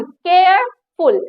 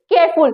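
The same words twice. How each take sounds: First: "केयरफुल" split slowly into care, then ful; syllable by syllable. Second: Said in the usual way. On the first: Shown as a demonstration. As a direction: stretch "केयरफुल" into two separate beats. ("केयरफुल" दो हिस्सों में, धीरे-धीरे) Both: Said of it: "बोलने में थोड़ा सा time लगे".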